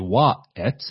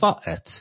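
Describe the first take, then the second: First: The word begins with a w sound. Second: The word begins with a v sound. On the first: "they don't say wa et" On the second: "they say va et"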